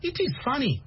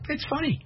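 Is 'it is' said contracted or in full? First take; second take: full; contracted. First: It is said as two full words. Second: It is contracted into one syllable. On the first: The speaker sounds like a non-native speaker. The speaker calls it wrong. "they know you're not American" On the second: The speaker sounds like a native speaker. The speaker calls it right. "The Americans say"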